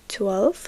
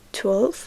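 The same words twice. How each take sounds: The two takes are said the same way.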